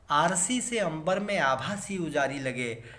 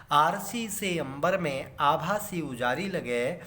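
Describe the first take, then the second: Both takes have the same delivery.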